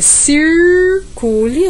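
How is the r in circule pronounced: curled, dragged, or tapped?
curled. The r is curled with the tongue tip raised. "no interior paulista é circule, a gente faz uma U, sobe um pouquinho"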